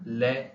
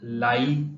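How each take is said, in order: First: The vowel is a plain 'e'. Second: The vowel glides like 'ai'. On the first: The speaker calls it right. "ले and शेन" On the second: The speaker calls it wrong. "ये लाई नहीं होगा"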